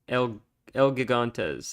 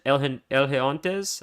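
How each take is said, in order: First: The second word begins with a hard g sound. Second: The second word begins with an h sound. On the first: "I'm not saying that right" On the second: "Is it a He noise because it's Spanish?"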